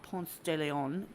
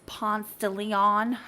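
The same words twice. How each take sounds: First: The name is pronounced the way outsiders say it. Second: The name is pronounced the way town locals say it. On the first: The speaker is not from the town. The speaker calls it wrong. "it's not Ponce de Leon. ... that's not how you say it" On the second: The speaker knows the town. The speaker calls it right. "it's Ponce de Leon"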